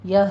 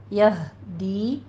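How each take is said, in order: First: Flat یہ; wrong pronunciation. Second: یہدی with h from the throat; slow یہدی, the ہ breathed clearly from the throat; recited یہدی; correct tajweed. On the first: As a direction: say یہ with a weak h. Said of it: "اس کو یہ نہیں پڑھنا". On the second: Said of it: "ہا عکس حلق سے نکلے گا". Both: Shown as a demonstration.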